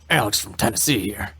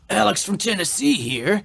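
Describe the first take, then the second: First: It is read in a gruff put-on character voice. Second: It is read in a normal speaking voice.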